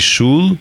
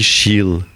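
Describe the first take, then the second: First: It has the standard Yiddish vowel, like 'oo'. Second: It has the Warsaw Yiddish vowel, like 'ee'.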